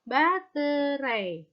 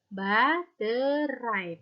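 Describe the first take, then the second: First: The last syllable ends with an 'ei' sound. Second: The last syllable ends with an 'ai' sound. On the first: The speaker calls it wrong. "bukan pakai E" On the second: The speaker calls it right. "Harusnya baterai. Pakai A"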